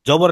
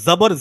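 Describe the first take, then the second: First: The word begins with a j sound. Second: The word begins with a z sound. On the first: The speaker calls it wrong. "জবর না" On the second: The speaker calls it right. "জা দিয়ে"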